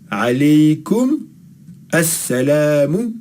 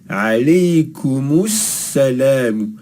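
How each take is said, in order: First: The words are separated with a glottal stop. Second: The words are linked with a connecting vowel. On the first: The speaker calls it wrong. "Sinon on aurait dit alaykum assalamu et on veut pas faire ça" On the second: The speaker calls it right. "Nous on veut alaykumus salam"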